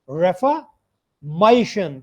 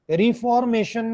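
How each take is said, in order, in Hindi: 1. Stress -tion से पहले वाले सिलेबल पर है। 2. स्ट्रेस -tion से पहले वाले सिलेबल पर नहीं है। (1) "The stress is over here. Mation" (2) "reformation नहीं है ये"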